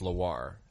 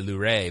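First: The name is said like Loire. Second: The name is said like Luray. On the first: The speaker calls it right. "but I think it's Loire" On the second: The speaker calls it wrong. "I always want to say Luray"

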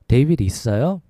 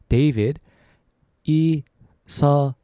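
First: It is said fast. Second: It is said slowly.

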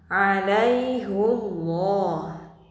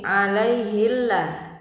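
First: The vowel before llah is a u sound. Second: The vowel before llah is an i sound. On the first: This is the special reading required in this verse. "haknya tetap dibaca dhamma alaihullah" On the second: This is the usual way the phrase is read. "biasanya bacaan berbunyi alaihillah"

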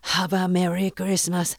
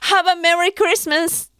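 First: It is said in a flat, plain voice. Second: It is said in a brighter, cheerful voice.

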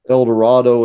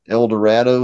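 First: Dorado is said without rhyming with shadow. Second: Dorado is said to rhyme with shadow. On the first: This is the familiar modern pronunciation. "instead of saying El Dorado and shadow" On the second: This is how the poet likely pronounced it. "he would probably said El Dorado and shadow"

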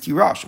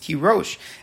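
First: The second vowel is an 'ah' sound. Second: The second vowel is an 'oh' sound. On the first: "it could be written, you could think of that the word is tirosh" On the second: "the way that we actually pronounce it is tirosh, as if there's a vav"

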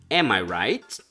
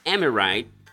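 First: The words are said separately as three full words. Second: The words are run together into one reduced word. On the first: "da frase Am I right? Eu estou correto?" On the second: "Am I right é uma variante da frase"

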